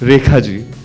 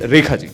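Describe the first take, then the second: First: The name is said with a dramatic sweep. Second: The name is said plainly and flatly.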